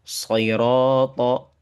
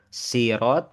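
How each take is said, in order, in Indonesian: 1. Bunyi s pertama itu berat dan tebal. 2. Bunyi s pertama itu ringan dan tipis. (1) "Beda ya dengan sirot" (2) "sirot itu jadi huruf sin malah"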